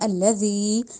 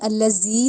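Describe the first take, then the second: First: The middle consonant is a soft 'dh' sound. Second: The middle consonant is a hard 'z' sound. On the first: The speaker calls it right. "हमने पढ़ना है अल्लज़ी, यानी नरमी से दांतों के दरमियान जुबान लाके" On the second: The speaker calls it wrong. "इसको हमने अल्लज़ी नहीं पढ़ना"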